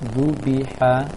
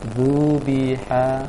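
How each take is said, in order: First: The word is said short and quick. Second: The word is drawn out slowly. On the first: The speaker calls it right. "bacaan pendek zubiha, dipercepat" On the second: The speaker calls it wrong. "seakan-akan panjang"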